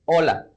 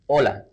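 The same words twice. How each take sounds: Both takes have the same delivery.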